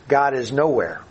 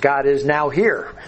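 First: The last part is said as one word. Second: The last part is split into two words. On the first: God is absent. "the atheist will say God is nowhere" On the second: God is present right now. "split it in the right way"

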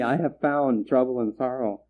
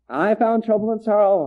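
First: It is said in a mournful, sorrowful tone. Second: It is said in a cheerful, triumphant tone. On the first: The speaker is grieved at finding it. The speaker calls it right. "woe is me" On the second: The speaker was glad to find it. The speaker calls it wrong. "as if they were looking for it, as if it was hide and seek"

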